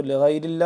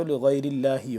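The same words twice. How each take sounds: First: لغیر اللہ closed on h, no final vowel; pausal form. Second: لغیر اللہ with final hi sounded; connected form. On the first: Teacher shows reading with a pause, vowelless ending. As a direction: stop اللہ without the i ending. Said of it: "وقف کریں گے تو". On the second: Teacher shows reading without pause, vowel ending. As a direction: end اللہ on an open i vowel. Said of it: "اگر وقف نہیں کرنا چاہتے تو". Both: Shown as a demonstration.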